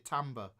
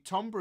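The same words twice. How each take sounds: First: It is said in an American accent. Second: It is said in a British accent.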